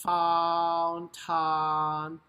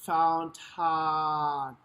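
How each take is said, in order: The two takes are said the same way.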